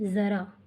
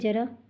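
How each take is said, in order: First: The word begins with a 'z' sound. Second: The word begins with a 'j' sound. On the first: A little. "दूसरे में ज़" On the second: Old age. "एक में पूरा उच्चारण कर रहे हो ज"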